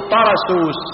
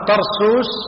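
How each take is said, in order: First: The first syllable is said with an open a vowel. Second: The first syllable is said without an open a. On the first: The speaker calls it right. "قولا واحدا تقول طرسوس" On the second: The speaker calls it wrong. "وأما طرسوس هذا خطأ"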